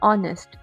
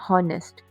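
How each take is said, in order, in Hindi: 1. इस शब्द की शुरुआत स्वर ध्वनि से होती है। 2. इस शब्द की शुरुआत h ध्वनि से होती है। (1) "we pronounce this word as ऑनेस्ट" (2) "not हॉनेस्ट"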